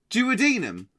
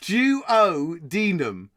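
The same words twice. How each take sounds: First: Said in the usual way. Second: "Duodenum" very slowly, jew, oh, DEE-num; sounded out. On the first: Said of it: "Hell, that's what I said". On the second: Shown as a demonstration. Quiz host checking the word, "Duodenum" slowly piece by piece. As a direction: stretch "Duodenum" into separate parts with a j start.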